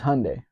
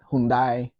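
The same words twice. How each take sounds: First: The name ends rhyming with Sunday. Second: The name ends not rhyming with Sunday. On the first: The speaker calls it right. "it rhymes with Sunday" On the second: The speaker calls it wrong. "not Hyundai or anything like that"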